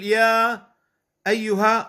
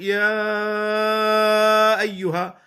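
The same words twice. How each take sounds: First: The long vowel is held for four beats. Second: The long vowel is held for six beats. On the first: "أربع حركات" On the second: "ست حركات"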